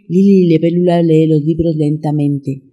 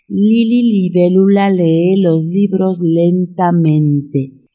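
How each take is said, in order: First: It is said at a fast pace. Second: It is said at a slow pace. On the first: "Un poquito más rápido" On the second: "Una vez más"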